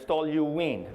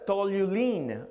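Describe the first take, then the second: First: The word is said without an extra L sound. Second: An extra L sound is added to the word. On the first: The speaker calls it right. "No, there's no L there" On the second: The speaker calls it wrong. "They put an L"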